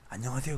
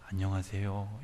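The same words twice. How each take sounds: First: It is a hurried, careless greeting. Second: It is a warm, sincere greeting.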